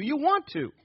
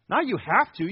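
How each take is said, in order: First: "want" lifted high and leaned on; stress on want. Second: "Not you have to" with a dutiful lean on have to; "have to" as reluctant duty; stress on want. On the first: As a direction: hit "want" in "you want to". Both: Shown as a demonstration. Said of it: "contrast have to vs want to".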